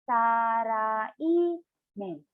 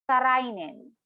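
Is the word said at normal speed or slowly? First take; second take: slow; normal. First: The word is said slowly, syllable by syllable. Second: The word is said at normal speed.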